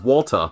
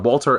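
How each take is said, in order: First: The name ends with a flat 'uh' sound. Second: The name ends with a clear 'er' sound. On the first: "W A L T U H" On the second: "pronouncing the name Walter"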